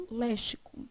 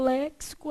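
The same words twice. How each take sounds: First: Léxico said with x as sh, lé-shi-co, dropped to a murmur; quiet mock of the wrong léxico with sh; wrong sh, quietly. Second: Léxico said with x as ks, lék-si-co; the right léxico with ks; correct ks. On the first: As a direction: say léxico with sh as the student's mistake. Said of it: "aí fala léxico". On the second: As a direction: say léxico with a clear ks. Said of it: "Nunca falou léxico". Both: Shown as a demonstration.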